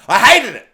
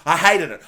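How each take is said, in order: First: Much louder stress on "hated"; loud exasperation. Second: Firm stress on "hated"; emphatic dislike. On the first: Reviewer venting about the character, loudly exasperated. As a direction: burst out with full loathing. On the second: Reviewer venting about the character, contained exasperation. First take, then repeated louder. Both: Real, not acted.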